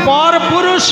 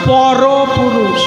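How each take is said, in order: First: The two words are said with a break between. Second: The two words are pressed together without a break. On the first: A man who is not one's husband. The speaker calls it wrong. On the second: The supreme being above all men. The speaker calls it right.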